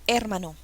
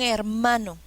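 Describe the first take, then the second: First: The stress is on the first syllable. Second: The stress is on the middle syllable. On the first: The speaker calls it wrong. "No, incorrecto" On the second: The speaker calls it right. "Suena mejor"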